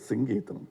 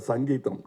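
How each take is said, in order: First: The first vowel is an 'i' sound. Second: The first vowel is an 'a' sound. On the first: The speaker calls it right. "No, it is Singeetam" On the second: The speaker calls it wrong. "there was always a confusion how to pronounce his name"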